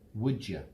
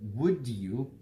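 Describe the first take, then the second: First: The word 'you' is reduced to a quick 'ya'. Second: The word 'you' is said with a full vowel. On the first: "they change it to would ya" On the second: "This is how we pronounce it"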